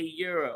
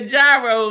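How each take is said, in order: First: The word begins with a 'y' sound. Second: The word begins with a 'j' sound. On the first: The speaker calls it right. "that is not how we say it in our country. It's a euro" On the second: The speaker calls it wrong. "I've been saying it like this for twenty-three years"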